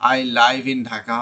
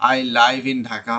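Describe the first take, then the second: First: Live has a long vowel, rhyming with five. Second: The same.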